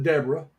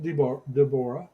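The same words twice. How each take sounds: First: Deborah as DEB-ruh, stress first; American pronunciation of Deborah. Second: Deborah as dih-BOR-uh, stress in the middle; her pronunciation of Deborah. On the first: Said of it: "We would pronounce it Deborah". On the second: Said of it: "She pronounces it". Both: Shown as a demonstration.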